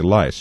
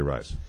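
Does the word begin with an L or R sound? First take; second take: L; R. First: The word begins with an l sound. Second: The word begins with an r sound. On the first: The speaker calls it wrong. "they say lice" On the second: The speaker calls it right. "They don't say rice"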